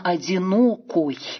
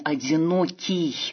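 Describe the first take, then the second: First: The word ends in an 'oy' sound. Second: The word ends in an 'iy' sound. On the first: This is the older native Russian form used in the poem. "именно одинокой" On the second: This is the modern standard form. "как мы произносим, опираясь на современные орфоэпические нормы"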